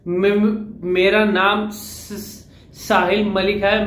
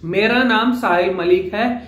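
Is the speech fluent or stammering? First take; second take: stammering; fluent. First: The words stall and repeat their first sounds. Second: The words flow smoothly at a normal speed. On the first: The speaker calls it wrong. "अब जो अटकने वाला होगा" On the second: The speaker calls it right. "यहां मेरा speed का level normal है"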